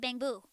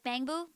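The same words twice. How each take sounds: First: The word is said flat, both syllables even. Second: The word is said with one syllable standing out. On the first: "it should be bang boo. Like bamboo. It's kind of flat" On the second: "sometimes it might be more like bang boo"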